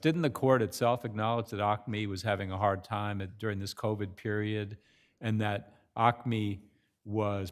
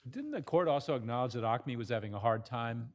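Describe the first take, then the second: First: Slowed down. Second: Rushed, words running together; hurried question, talking too fast. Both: Real, not acted. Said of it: "I'm talking too fast".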